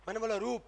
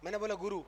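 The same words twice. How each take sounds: First: रूप with a long drawn ऊ; long u demo. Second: गुरु with short clipped ऊ; short u demo. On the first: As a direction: stretch the ऊ in रूप. (रूप लंबे ऊ के साथ) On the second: (गुरु छोटे उ के साथ) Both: Shown as a demonstration. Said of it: "आप देखना, मैं बोल रहा हूँ".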